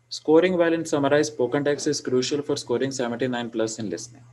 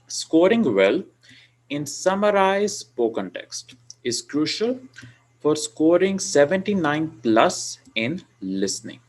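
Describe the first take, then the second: First: It is said evenly, without extra stress or loudness. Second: Key words are stressed, louder, with rising-falling pitch.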